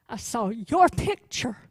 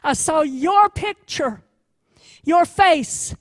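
First: Said in the usual way. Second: Louder and higher, slow and emphatic; a tender voice swelling to a heartfelt cry; passionate outburst. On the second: Acted. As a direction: burst out with sudden passion. Climax, defender's sudden outburst.

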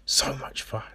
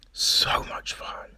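First: Fading whisper; whispered repeat, even softer; softer whispered echo. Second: Slow hushed whisper; soft whispered joy; whispered delight. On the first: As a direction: let it die away in a breath. Echoes in whisper. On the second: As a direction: breathe it out with relish. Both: Real, not acted.

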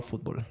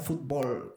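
First: Said in the usual way. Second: "fútbol" with the stress on the last syllable; Mexican pronunciation. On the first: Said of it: "y no fútbol". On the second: Shown as a demonstration. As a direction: say "fútbol" as fut-BOL. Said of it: "¿Por qué los mexicanos dicen fútbol y no fútbol?". ("fútbol" con acento en la O final)

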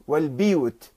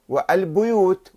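First: والبيوت said wal-biyut; with kasra. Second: والبيوت said wal-buyut; with damma. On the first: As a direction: spread the first vowel of والبيوت to i. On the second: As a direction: round the first vowel of والبيوت to u. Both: Shown as a demonstration. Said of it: "بالضم والكسر".

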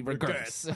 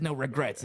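First: "regrets" garbled for a joke, through laughter; laughingly mangle "regrets" like a misspelt tattoo; joke mispronunciation. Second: Said in the usual way. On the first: Pretend. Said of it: "it's supposed to be". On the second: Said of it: "It's supposed to be".

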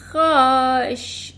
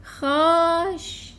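First: خواش stretched very slowly and louder; slow misspelling. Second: خواش drawn out very slowly; misspelling drawl. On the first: Eric proudly spelling the word wrong again, drawn out slowly. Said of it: "اریک گفت". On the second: Eric spelling the word wrong to the headmistress, drawn out slowly. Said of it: "اریک به سرعت گفت". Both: Acted.

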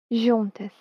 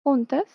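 First: Portuguese "juntas", J like the S in "measure"; Portuguese accent. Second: "Juntas" with a Spanish throaty J; "Juntas" said as in Spanish, harsh J at the start; "Juntas" Spanish style. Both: Shown as a demonstration. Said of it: "solo cambia el acento".

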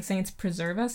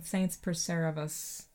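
First: Said in the usual way. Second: "Saints preserve us" slow, soft, blurred; slurred saints preserve us. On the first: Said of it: "doesn't sound like he's saying". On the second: Shown as a demonstration. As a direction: mumble "Saints preserve us" like the film. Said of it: "it sounds like he's saying".

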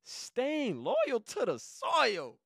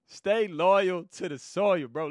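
First: Higher, very slow, drawn out; proud title reveal, stretched slow; slow proud announcement. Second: Laughing. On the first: Shown as a demonstration. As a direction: drag out "Staying loyal to the soil" like a title. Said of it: "guess what I titled it". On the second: Real, not acted.

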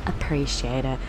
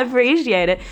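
First: Low, softer, offhand reply; imitated curt reply. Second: Higher, louder sarcastic echo; laugh, then throw his words back; mocking laugh. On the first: Housemate replying in the group conversation, imitated low curt reply. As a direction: imitate him dropping it tersely. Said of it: "That was all he said". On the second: Mocking her housemate's reply, high laughing sarcasm.

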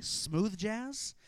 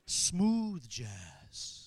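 First: Said in the usual way. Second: Low, silky radio-announcer "Smooth jazz.". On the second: Pretend. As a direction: purr "Smooth jazz." like a late-night DJ.

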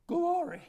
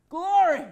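First: Said in the usual way. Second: Louder, laughing shout of Glory; joyful laughing glory. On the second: Real, not acted. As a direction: burst out in delighted praise.

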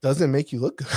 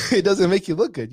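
First: Said in the usual way. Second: Higher and louder, laughing it out; amused, rueful emphasis; laughing repeat. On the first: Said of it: "first take of repeated line". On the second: Real, not acted. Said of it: "laughing repeat of line".

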